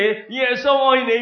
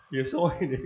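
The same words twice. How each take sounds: First: High, loud, drawn-out smiling greeting; smiling delivery. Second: Said in the usual way. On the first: Shown as a demonstration. Preacher showing how to hand out leaflets, smiling delivery. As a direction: say it with a big smile, pitched up and slower. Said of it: "你笑笑地". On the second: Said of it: "專心".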